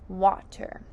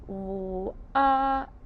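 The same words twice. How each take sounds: First: Said in the usual way. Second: "W-a-t-er" as four separate sounds; "W-a-t-er" slowly, phoneme by phoneme; sounding out. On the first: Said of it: "The word is water". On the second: Shown as a demonstration. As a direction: hold "W" and "a", tap "t", then "er". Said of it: "Let's sound out water".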